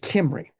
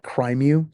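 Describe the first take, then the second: First: It starts with 'kim' and ends in 'ree'. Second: It starts with 'krim' and ends in 'yoo'. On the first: It follows the native Welsh pronunciation. "they're Welsh, and hence the name and the way it's pronounced" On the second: It reads the spelling as if it were English. "if you try to pronounce it in English"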